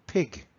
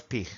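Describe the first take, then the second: First: Pig ending in a hard voiced g; correct final G. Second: Pig ending in a throaty j, "pij"; wrong final G. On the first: Teacher correcting the pupils' pig, hard final g. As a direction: stop pig cleanly on a hard g. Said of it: "es pig". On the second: Teacher rejecting the wrong pig, final j sound. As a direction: let the g of pig turn into a Spanish j. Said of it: "no es pig". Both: Shown as a demonstration.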